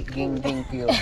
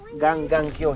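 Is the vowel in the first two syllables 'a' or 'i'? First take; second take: i; a. First: The first two syllables use an 'i' vowel. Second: The first two syllables use an 'a' vowel. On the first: The speaker calls it wrong. "hindi gingging Q" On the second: The speaker calls it right. "sa Bisaya, ganggang Q"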